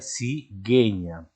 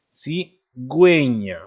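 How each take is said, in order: First: No u sound follows the g. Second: A clear u sound follows the g. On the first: The speaker calls it wrong. "Si no llevara esos dos puntos, ¿cómo se leería? Se leería cigueña, pero no existe" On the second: The speaker calls it right. "es necesario poner la diéresis para que esa u pueda sonar"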